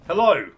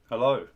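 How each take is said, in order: First: It is said in a lively, energetic way. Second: It is said in a flat, low-energy way.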